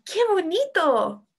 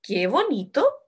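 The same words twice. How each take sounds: First: High, stretched exclamation falling on "bonito"; exclamación con emoción. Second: Slow, questioning rise at the end of "bonito"; tono de pregunta. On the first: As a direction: exclaim it slowly with acted delight on "bonito". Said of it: "Se está expresando con emoción". (exclamación aguda, "bonito" alargado y descendente) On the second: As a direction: say "Qué bonito" as if asking. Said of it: "y ¿qué dice?". (como pregunta, "bonito" sube al final) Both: Shown as a demonstration.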